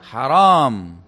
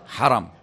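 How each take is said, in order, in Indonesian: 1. Vokal kedua panjang. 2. Vokal kedua pendek. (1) "Jangan Anda bilang haram. Karena kalau ditambah alif, ... berarti dilarang" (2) "Bagaimana bacanya? Haram"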